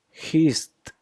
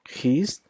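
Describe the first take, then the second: First: "hissed" higher and falling, hist with a clear T. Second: "Hissed" higher and rising, hist. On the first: Teacher completing the drill, "hissed" falling as hist. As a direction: land "hissed" on the final T. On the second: Teacher drilling the T sound, "Hissed" rising as hist. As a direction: lift "Hissed" like the first item of a drill. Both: Shown as a demonstration. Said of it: "There is a T sound".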